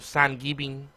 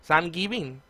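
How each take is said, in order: First: It is said in a Spanish accent. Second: The same.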